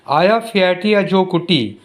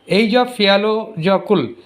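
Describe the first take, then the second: First: "Aya Fiatia Jokutti", slow and joined up, ending on "tee"; demonstrated pronunciation. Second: "Asia Fialajokul", the name read as it is spelt; spelling pronunciation. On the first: Teacher showing children how the name is pronounced, careful pronunciation. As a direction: say "Aya Fiatia Jokutti" slowly, with T sounds for the written Ls. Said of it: "This is pronounced as".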